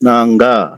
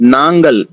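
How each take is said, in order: First: The word ends on a long vowel, no l. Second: The word ends with a final l sound. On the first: This is the casual spoken form. "వాడుక భాషలో నాంగా అని గూడా చెప్పొచ్చు" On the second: This is the full standard form. "మేము అంటే నాంగల్"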